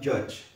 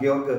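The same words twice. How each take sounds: First: The name is said with English sounds. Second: The name is read with Indonesian letter sounds. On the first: The speaker calls it right. "tapi George" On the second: The speaker calls it wrong. "Harusnya bukan George"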